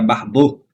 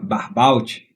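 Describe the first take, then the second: First: The name is said with French pronunciation. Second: The name is said without French pronunciation. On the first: The speaker calls it right. "na verdade é Barbeau, né? Claro, ele tem um nome francês" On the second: The speaker calls it wrong. "eu estava falando"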